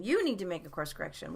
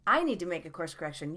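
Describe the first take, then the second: First: Emphatic "You", quick tail; stress on YOU. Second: Emphatic "I", quick tail; stress on I. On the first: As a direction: hit "You" hard, then run quickly through the rest. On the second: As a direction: hit "I" hard, then run quickly through the rest. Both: Real, not acted. Contrasts who needs the correction.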